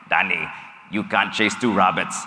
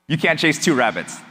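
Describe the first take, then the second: First: Put-on a light, slightly lower German accent, like a wise friend's advice. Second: Said in the usual way. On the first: A German friend gives the speaker blunt advice, in a light German accent. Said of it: "I'm probably gonna butcher this German accent". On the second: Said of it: "I'm like".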